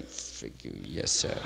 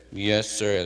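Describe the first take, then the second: First: Much lower "Frig you, yes, sir." with mock respect; understated resentful mock politeness; sneering aside. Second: Lightly voiced humble servant; a touch of a dutiful "Yes, sir."; mild obedient reply; polite yes sir. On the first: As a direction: grumble the insult, then the sir. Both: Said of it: "They're going".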